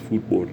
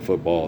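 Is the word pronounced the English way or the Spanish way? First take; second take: Spanish; English. First: The word has a Spanish pronunciation. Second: The word has an English pronunciation. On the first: The speaker calls it right. "that's the, you know, Spanish pronunciation" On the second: The speaker calls it wrong. "It's not football"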